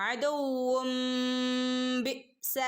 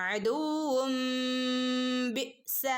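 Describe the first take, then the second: Both takes have the same delivery.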